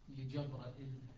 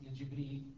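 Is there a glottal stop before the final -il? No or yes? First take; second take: yes; no. First: A long a and glottal stop precede the final -il. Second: No long a or glottal stop precedes the final -il. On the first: This is the reading of one transmitter, Shu'ba. "تكون قراءة شعبة لجبرائيل" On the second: This is the reading of another transmitter, Hafs. "هذه قراءة حفص لجبريل"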